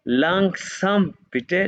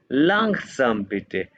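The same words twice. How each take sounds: First: लैंगसम बिटे slowly, pitch rising high on बिटे like a plea; rising request. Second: लैंगसम बिटे said slowly, falling at the end; slow model phrase. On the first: Teacher acting out a student's request, slow and rising. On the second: Teacher showing students what to say, slow and falling. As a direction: give लैंगसम बिटे slowly as a plain statement. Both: Shown as a demonstration. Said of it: "तो आपने अभी से कहना है".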